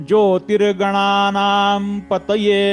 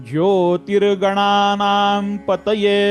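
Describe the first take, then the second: The two takes are said the same way.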